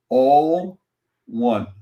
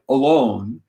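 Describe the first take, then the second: First: It is said as two words, 'all one'. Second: It is said as one word, 'a-lone'. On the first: It means being united with everything. The speaker calls it right. "Read that word all one" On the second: It means being by yourself. The speaker calls it wrong. "have been taught to pronounce it incorrectly"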